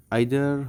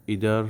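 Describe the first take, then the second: First: Either said "aither", long ai vowel; slow, careful British either. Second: Either said "eether" with long ee; quick American either. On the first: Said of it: "হচ্ছে British উচ্চারণ". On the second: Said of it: "হচ্ছে American উচ্চারণ". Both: Shown as a demonstration.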